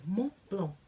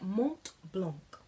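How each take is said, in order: First: The final T and C sounds are silent. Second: The final T and C sounds are pronounced. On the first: The speaker calls it right. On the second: The speaker calls it wrong.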